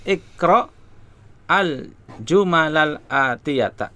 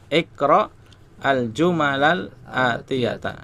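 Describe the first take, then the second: The two takes are said the same way.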